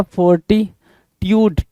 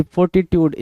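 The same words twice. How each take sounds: First: "फोर्टिट्यूड" drawn out slowly, syllable by syllable; slow model pronunciation. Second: Said in the usual way. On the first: Shown as a demonstration. Teacher to students, stretching the word out slowly. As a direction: lay out "फोर्टिट्यूड" slowly for the class. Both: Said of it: "फोर्टिट्यूड की meaning क्या होगी".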